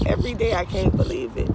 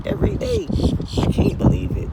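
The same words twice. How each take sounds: First: Said in the usual way. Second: "Every day" jumps much higher and louder; emphatic repeat. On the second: Real, not acted. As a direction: repeat it crying out "Every day I can't believe it".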